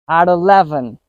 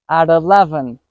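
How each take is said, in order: No difference in how they are said.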